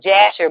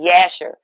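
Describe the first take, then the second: First: The name begins with a j sound. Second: The name begins with a y sound. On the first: This is the common name. The speaker calls it wrong. "they call it Jasher" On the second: This is the original name. The speaker calls it right. "that word is actually Yasher"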